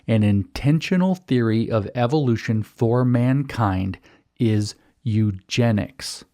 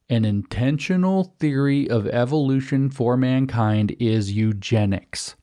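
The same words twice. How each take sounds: First: The sentence is spoken slowly and deliberately. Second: The sentence is spoken at a normal pace.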